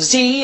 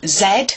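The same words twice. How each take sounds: First: The letter is said the American way, zee. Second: The letter is said the British way, zed.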